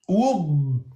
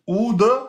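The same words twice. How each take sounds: First: The final consonant is held closed without release. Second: The final consonant is released with a small bounce. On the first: The speaker calls it right. "Il fallait bloquer le point de sortie" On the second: The speaker calls it wrong. "Attention de ne pas le faire qalqala. Si vous dites oud, oud, c'est faux"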